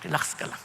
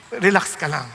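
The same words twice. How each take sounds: First: Soft whisper of "Relax ka lang"; hushed comfort in a whisper; whispered reassurance. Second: Said in the usual way. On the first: Shown as a demonstration.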